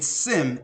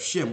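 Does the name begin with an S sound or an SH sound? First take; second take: S; SH. First: The name begins with a plain S sound. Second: The name begins with an SH sound. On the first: The speaker calls it wrong. "a mispronunciation or mispronouncing Shem. They're saying Sem" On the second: The speaker calls it right. "instead of Shem"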